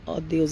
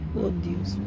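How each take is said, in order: First: The first word has an open O vowel. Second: The first word has a U-like vowel. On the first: The speaker calls it wrong. "nós não falamos ó Deus" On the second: The speaker calls it right. "a gente fala o Deus, né? ... Com som de U"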